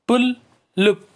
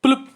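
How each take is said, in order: First: "पुलुप" slow and high, split as पुल, लुप; syllable by syllable. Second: Said in the usual way. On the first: Shown as a demonstration. Teacher showing children two syllables, syllable by syllable. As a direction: break "पुलुप" into two raised beats. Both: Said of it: "इसमें भी दो syllable".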